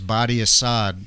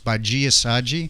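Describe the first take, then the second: First: The name is said as spelled, with hard d sounds. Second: The name is said with soft 'j' sounds. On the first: This is how the name looks when read. The speaker calls it wrong. "I thought her name was Badi Assad. Like would, was the way I read it" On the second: This is how the name is really said. The speaker calls it right. "but it's Baji Asaji"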